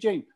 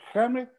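First: The name is said with English sounds. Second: The name is said with Spanish sounds. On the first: The speaker calls it right. "los chicos que estudian inglés saben que es James" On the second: The speaker calls it wrong. "¿cómo yo voy a pronunciar James"

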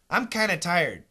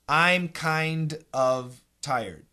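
First: The V and D are dropped, giving kinna. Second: Both words are fully pronounced, with the V sound.

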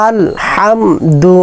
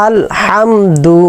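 No difference in how they are said.

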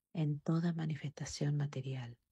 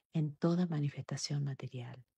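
No difference in how they are said.

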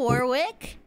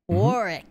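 First: The name is said in a non-British way. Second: The name is said the British way.

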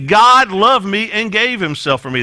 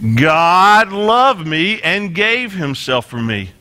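First: The line is spoken at a faster pace. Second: The line is spoken at a slower pace.

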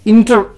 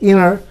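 First: The t after the n is clearly pronounced. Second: The t after the n is dropped. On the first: The speaker calls it wrong. "inter खराब लगता है" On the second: The speaker calls it right.

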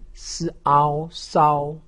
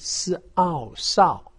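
First: The pitch stays high and level. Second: The pitch falls sharply from high to low. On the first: "一声" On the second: "四声"

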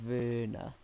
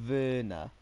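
Both takes have the same delivery.

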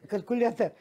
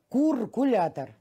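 First: The word begins with the syllable kal. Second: The word begins with the syllable kur. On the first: The speaker calls it right. "он не выговаривал слово калькулятор" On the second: The speaker calls it wrong. "Он говорил, бабушка, куркулятор"

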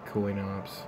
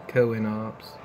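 First: It is said in a natural American southern accent. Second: It is said in a put-on cartoon character accent. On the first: "my American and slightly southern accent" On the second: "I could say it like Stewie Griffin"

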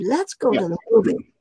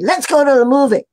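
First: It is said softly and warmly, smiling. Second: It is said harshly, like a blunt order. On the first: It is a friendly, positive suggestion. The speaker calls it right. "Soft with a smile" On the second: It comes across as pushy or demanding. The speaker calls it wrong. "But you don't say"

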